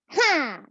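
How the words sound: The voice resonates in the nose. "this is my nasal voice"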